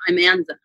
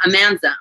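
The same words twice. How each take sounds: First: "I'm Anza" as two words. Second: "Amanza" as one word. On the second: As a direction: say "Amanza" as her name. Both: Shown as a demonstration. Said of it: "it sounds like it".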